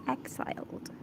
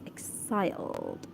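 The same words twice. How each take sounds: First: Exiled said softly as EK-saild; exiled with an "eks" opening, very soft; corrected pronunciation. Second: Exiled said as ik-SAILD; exiled with an "ik" first syllable, drawn out; own pronunciation attempt. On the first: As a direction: say exiled starting with "ek". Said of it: "Did I pronounce it correctly?". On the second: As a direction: say exiled starting with a short "ik". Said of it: "I pronounce it as exiled". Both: Shown as a demonstration.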